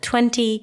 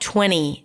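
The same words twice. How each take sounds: First: The T after the N is clearly pronounced. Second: The T after the N is dropped. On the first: "instead of" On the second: "people tend to drop it like"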